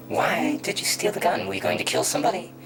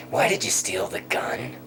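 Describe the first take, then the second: First: Loud, much higher repeated demand; acted cop raising his voice sharply; escalated interrogation. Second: Louder, higher pressing question; imitating a cop demanding a reason; acted interrogation. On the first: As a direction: fire the accusation at the suspect. Acted interrogation, question repeated harder. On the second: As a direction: press the suspect for an answer. Acted police interrogation of boy.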